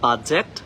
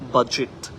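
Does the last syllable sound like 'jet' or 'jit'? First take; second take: jet; jit. First: The last syllable sounds like 'jet'. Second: The last syllable sounds like 'jit'. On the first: The speaker calls it wrong. "জেট না বলে জিট। So this is not বাজেট" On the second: The speaker calls it right. "This is বাজেট"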